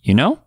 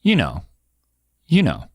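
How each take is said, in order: First: "You know" rising at the end; rising "You know" to check understanding; upward intonation. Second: "you know" with a falling end; falling "you know" as a statement; downward intonation. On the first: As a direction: lift "know" into a question. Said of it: "an upward intonation". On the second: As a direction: let "know" drop, seeking agreement. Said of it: "with a downward intonation". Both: Shown as a demonstration.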